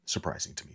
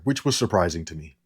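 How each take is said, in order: First: Whispered aside. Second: Said in the usual way. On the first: Shown as a demonstration.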